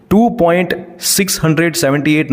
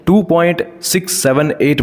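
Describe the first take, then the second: First: two point six hundred seventy eight read as a whole number after the point; wrong reading. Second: two point six seven eight with each digit after the point said singly; right reading. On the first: Teacher shows students the wrong way to read decimals, plain. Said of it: "नहीं बोलते". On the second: Teacher shows students the correct decimal reading, plain. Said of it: "बोलते हैं". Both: Shown as a demonstration.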